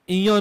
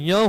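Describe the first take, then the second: First: An extra 'i' vowel is added before 'ya'. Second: It is a single 'ya' sound with no extra vowel. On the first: The speaker calls it wrong. "इया नहीं होता" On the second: The speaker calls it right. "ये य होता है"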